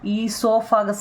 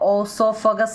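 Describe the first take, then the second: First: The word begins with an 'ee' sound. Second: The word begins with an 'oh' sound. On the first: The speaker calls it right. "ഈസോഫഗസ് എന്നാണ് കേട്ടോ" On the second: The speaker calls it wrong. "നമ്മൾ ഓസോഫഗസ് എന്ന് പറയില്ല"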